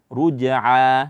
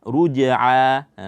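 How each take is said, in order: No difference in how they are said.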